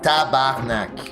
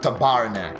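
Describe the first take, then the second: First: The stress falls on the opening syllables. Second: The stress falls on a later syllable. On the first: The speaker calls it right. "you would put the uh, influx on the first two syllables" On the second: The speaker calls it wrong. "she puts the influx on the second syllable instead of the first one"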